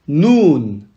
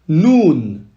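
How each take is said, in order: The two takes are said the same way.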